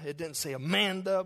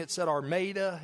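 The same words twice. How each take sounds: First: Amanda said as "a-MAN-da"; "Amanda" without R, a-MAN-da; correct name. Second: Armada said as "ar-MAY-da"; "Armada" with a clear R, ar-MAY-da; misreading the name. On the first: Shown as a demonstration. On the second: Retold or imitated.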